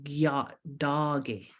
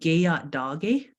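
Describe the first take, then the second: First: The vowel after the first g is dropped. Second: The vowel after the first g is kept. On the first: The speaker calls it right. "the E drops there" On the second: The speaker calls it wrong. "that that doesn't sound right"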